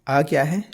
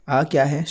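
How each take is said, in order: No difference in how they are said.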